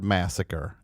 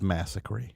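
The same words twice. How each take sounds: First: The word has its ordinary standard pronunciation. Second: The word has a distorted, cartoonish pronunciation. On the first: The speaker calls it right. "mispronouncing the word massacre" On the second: The speaker calls it wrong. "as massacre"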